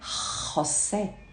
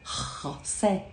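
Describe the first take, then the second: First: It begins with a harsh throaty sound. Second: It begins with a harsh throaty sound.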